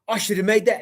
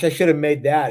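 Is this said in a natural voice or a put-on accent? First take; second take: put-on; natural. First: It is said in a put-on Australian-sounding accent. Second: It is said in the speaker's ordinary accent. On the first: "that's a terrible Australian" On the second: "he wouldn't say it like that"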